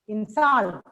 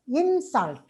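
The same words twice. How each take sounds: First: The stress is on the second syllable. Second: The stress is on the first syllable. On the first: It is used as a verb. "But as a verb, we pronounce it as insult" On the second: It is used as a noun. "you pronounce it as insult when it is a noun"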